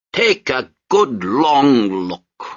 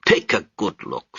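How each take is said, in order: First: Slow, louder and higher, every word stretched; slow, weighted look. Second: Said in the usual way. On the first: Acted. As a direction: draw it out like a final warning.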